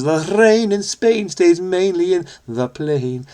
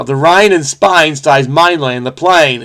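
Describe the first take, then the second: First: Slow, higher, mock received pronunciation; Henry Higgins. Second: Bad Cockney accent, lightly attempted; clumsy mock Cockney with "rain" turned to "Rhine"; Eliza Doolittle. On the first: Puzzle solver playing a teacher correcting Cockney speech, slow received pronunciation. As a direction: enunciate each word in exaggerated received pronunciation, drawn out. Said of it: "Henry Higgins corrects her and teaches". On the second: Puzzle solver apologetically imitating a Cockney flower seller, bad Cockney accent. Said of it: "is what Eliza Doolittle would have said".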